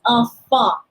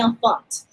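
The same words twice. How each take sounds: First: The final consonant is silent, ending short. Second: The final consonant is pronounced at the end. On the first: The speaker calls it right. "It's enfant. It's very short" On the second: The speaker calls it wrong. "Don't say enfant"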